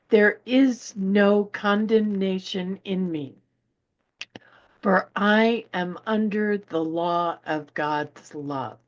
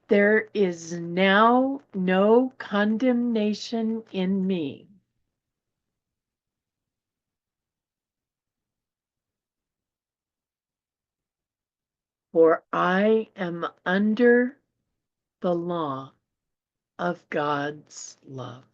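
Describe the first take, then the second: First: It is read at a quick pace. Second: It is read at a slower pace.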